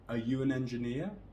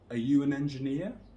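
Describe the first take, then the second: First: Only you and engineer are stressed. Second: Only you and engineer are stressed.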